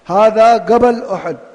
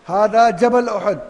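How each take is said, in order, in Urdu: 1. پہاڑ کا لفظ g کی آواز سے شروع ہوتا ہے۔ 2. پہاڑ کا لفظ j کی آواز سے شروع ہوتا ہے۔ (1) "کہیں جیم کو گیم کہتے ہیں گاف" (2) "اصل کیا ہے؟"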